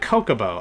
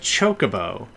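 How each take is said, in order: First: The word begins with a hard k sound. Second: The word begins with a ch sound. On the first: The speaker calls it wrong. "When I was a kid and I didn't know how to pronounce that word" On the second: The speaker calls it right. "It's actually pronounced Chocobo"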